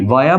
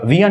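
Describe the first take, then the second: First: The first vowel sounds like 'ah'. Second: The first vowel sounds like 'ee'. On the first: The speaker calls it right. "वाया बोला जाता है" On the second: The speaker calls it wrong. "विया नहीं"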